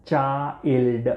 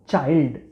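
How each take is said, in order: First: ચાઇલ્ડ very slow, opened up as ચા-ઇલ્ડ; slow teaching model of ચા, ઇલ્ડ; syllable by syllable. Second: Said in the usual way. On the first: Shown as a demonstration. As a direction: stretch ચાઇલ્ડ into two beats for learners. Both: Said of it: "એને આપણે કહીશું".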